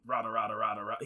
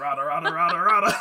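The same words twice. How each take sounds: First: Low, muttered rada rada gibberish; Schnitzel gibberish. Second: Loud, laughing rada rada gibberish; a loud, hammed-up cartoon creature's gibberish; Schnitzel gibberish. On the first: Retold or imitated. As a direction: mumble rada rada like a creature. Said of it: "he doesn't talk normal". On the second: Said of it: "that's how he talks".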